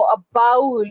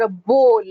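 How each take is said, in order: First: "bowl" with an "ow" as in "cow"; mispronounced bowl. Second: "bowl" with a long "o". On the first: Trainer showing a confusable word, "bowl" mispronounced as "baul". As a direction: say "bowl" as "bowel", rhyming with "owl". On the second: Trainer contrasting confusable words, "bowl" with a long o. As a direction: say "bowl" as "bohl", rhyming with "goal". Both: Shown as a demonstration. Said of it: "that would be a wrong example".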